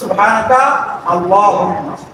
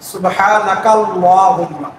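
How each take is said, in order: First: The words are separated by a stop. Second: The words run together without a stop. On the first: "আর যদি থামে পড়ে" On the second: "যেহেতু আমরা মিলে পড়ি ... এভাবে পড়া"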